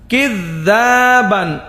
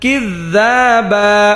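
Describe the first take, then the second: First: The word ends with an n sound. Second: The word ends on a vowel, no n. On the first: The reader continues without stopping. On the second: The reader stops at this word.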